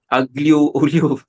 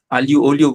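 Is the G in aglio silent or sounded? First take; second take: sounded; silent. First: The G in aglio is sounded. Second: The G in aglio is silent. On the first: The speaker calls it wrong. "they used to pronounce it as" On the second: The speaker calls it right. "with a silent G"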